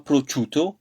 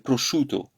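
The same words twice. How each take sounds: First: The 'sc' is said with a 'ch' sound. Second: The 'sc' is said with a 'sh' sound. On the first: The speaker calls it wrong. "C'est pas prosciutto" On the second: The speaker calls it right. "quand il y a le S et le C ensemble, c'est ch"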